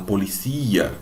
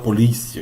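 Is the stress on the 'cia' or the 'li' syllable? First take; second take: cia; li. First: The stress falls on the syllable 'cia'. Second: The stress falls on the syllable 'li'. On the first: This is the Spanish pronunciation. "ele fala policia" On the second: This is the Portuguese pronunciation. "ele não fala polícia"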